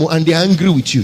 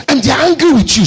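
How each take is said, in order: First: Said in the usual way. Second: Loud, high repeat of the line; shouted. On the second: Real, not acted. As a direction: hurl it at the crowd. Same words repeated, now shouted.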